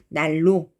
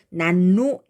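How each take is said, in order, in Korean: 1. 첫 음절은 l 소리로 끝납니다. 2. 첫 음절은 n 소리로 끝납니다. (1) "날로 이렇게 르로 바꿔서 발음해요" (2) "난로 이렇게 발음하지 않고"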